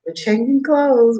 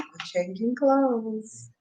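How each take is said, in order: First: Said in the usual way. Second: Slow, soft aside; quiet. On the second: Real, not acted. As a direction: drop it softly and slowly.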